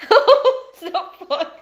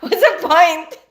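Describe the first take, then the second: First: Slow, laughing echo of the question; laughing repeat. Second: Loud, exasperated what's the point; a loud fed-up question; exasperated outburst. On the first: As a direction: stretch it out through a laugh. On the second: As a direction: throw up your hands at it out loud. Exasperated over forgetting lists. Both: Real, not acted.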